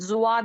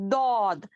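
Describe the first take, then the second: First: The letter begins with a buzzing z sound. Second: The letter begins with a heavy d sound. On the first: The speaker calls it wrong. "ज़ुआद नहीं पढ़ेंगे" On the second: The speaker calls it right. "दौद पढ़ेंगे"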